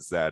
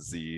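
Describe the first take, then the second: First: The letter is said the Canadian way. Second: The letter is said the American way. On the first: "Canadian saying Z" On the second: "and obviously in the U S"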